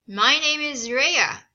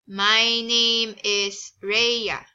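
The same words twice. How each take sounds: First: It is spoken with an American accent. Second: It is spoken with a Filipino accent. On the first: "When you say you have an American accent" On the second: "here is an accent of a Filipino"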